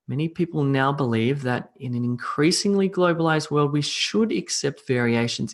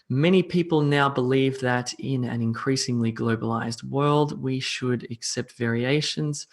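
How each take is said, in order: First: It is read in a lively, expressive way. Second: It is read in a flat, inexpressive way. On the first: "now I'll do it with meaning" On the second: "I can't not speak with meaning"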